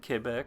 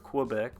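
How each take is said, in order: First: Quebec is said the local, non-American way. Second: Quebec is said the usual American way.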